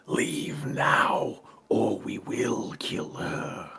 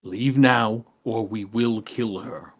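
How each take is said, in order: First: Breathy, hissed threat, drawn out; slow, whispery hissing menace; menacing hiss. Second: Voiced threat, firm and unhissed; plainly spoken, deliberate ultimatum; repeated threat. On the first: Acted. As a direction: hiss it slowly like a villain's warning. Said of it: "he hisses and says". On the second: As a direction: repeat the warning in full voice. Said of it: "just repeats essentially what Corbinian says".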